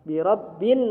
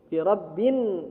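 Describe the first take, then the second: The two takes are said the same way.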